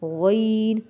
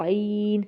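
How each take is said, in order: First: غین held long with rounded lips; rounded heavy ghain. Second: عین drawn out with lips not rounded; unrounded ain. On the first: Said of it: "ہم نے ہونٹ کو گول کرنا ہوتا ہے". (غین ہونٹ گول کر کے موٹا) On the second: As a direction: let عین drop downward, lips unrounded. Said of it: "ہونٹ کو نہیں رکھنا". (عین ہونٹ گول کیے بغیر، نیچے کی طرف) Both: Shown as a demonstration.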